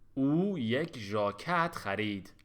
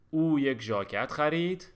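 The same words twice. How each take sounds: First: The sentence is read slowly and carefully. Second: The sentence is read at a normal pace.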